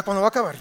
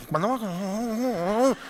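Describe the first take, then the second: First: Said in the usual way. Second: Drawn-out bored moan, rising at the end; impatient listener dragging it out slowly; slow whiny impatient complaint. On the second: Retold or imitated. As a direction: whine it like a fidgety churchgoer. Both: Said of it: "y ya".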